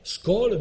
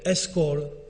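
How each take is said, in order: First: The word starts directly with an s sound. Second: The word starts with an e vowel before s. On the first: This form lacks the support vowel. "on ne dit pas skol" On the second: Spoken Latin added a support vowel. "mais escol"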